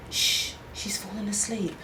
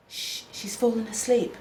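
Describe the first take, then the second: First: Breathy whisper with no voice at all. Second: Softly spoken but still voiced; a quiet hush, not yet a true whisper. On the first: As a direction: whisper it so the baby stays asleep. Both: A narrator's reading. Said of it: "Melanie whispered".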